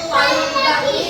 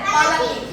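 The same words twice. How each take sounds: First: The l sound is doubled and held longer. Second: The l sound is single and short. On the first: "లా లా ఒత్తిస్తే పల్లకి" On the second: "ఒత్తు లేకపోతే పల్లకి"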